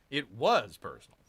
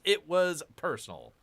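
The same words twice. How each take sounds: First: "was" punched in "It was personal"; stress on WAS. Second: Said in the usual way. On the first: Shown as a demonstration. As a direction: hit the word "was" hard. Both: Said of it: "Emphasis on was".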